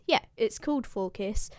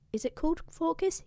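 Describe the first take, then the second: First: Said in the usual way. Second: Unsure question, high and rising on Phorcys. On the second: Real, not acted. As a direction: check the name, pitch lifting at Phorcys. Checks a name aloud, then confirms.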